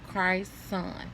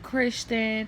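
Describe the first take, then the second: First: The name ends with a clear 'son' syllable. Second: The name ends with a 'chun' syllable. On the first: The speaker calls it right. "The way I'm pronouncing it is the way that his name is spelled" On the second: The speaker calls it wrong.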